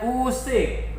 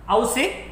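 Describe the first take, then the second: First: The word begins with a plain 'u' sound. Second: The word begins with an 'au' sound. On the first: The speaker calls it right. "bacanya usik" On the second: The speaker calls it wrong.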